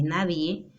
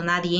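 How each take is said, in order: First: Said in the usual way. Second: "nadie" with an n added, "nadien"; common mispronunciation. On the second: Shown as a demonstration. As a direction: close "nadie" on a nasal n. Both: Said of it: "en vez de nadie".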